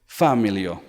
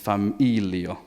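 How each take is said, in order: First: The stress falls away from the second-to-last syllable. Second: The stress falls on the second-to-last syllable. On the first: The speaker calls it wrong. "They tend to say familio when they're beginners. No, no, no" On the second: The speaker calls it right. "the stress is always on the last but one syllable"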